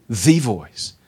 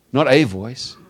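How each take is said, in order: First: "the" stressed and said as "thee", falling. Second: Said in the usual way. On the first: Shown as a demonstration. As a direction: lean hard on "the" in "the voice".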